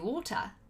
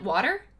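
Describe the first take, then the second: First: It is said in an RP British accent. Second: It is said in the speaker's own accent. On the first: "in R P, I say water" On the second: "like in my accent"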